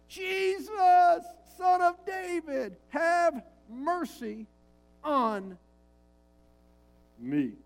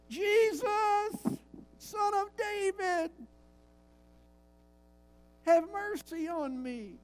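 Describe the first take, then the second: First: It is cried out more loudly. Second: It is said at a normal volume.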